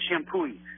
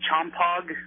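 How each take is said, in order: First: The name is said the local, unspelled way. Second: The name is read straight from its spelling. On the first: "you're supposed to pronounce it Shampooey" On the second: "I swear it says Chompog"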